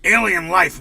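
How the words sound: It is said in a put-on broadcaster voice.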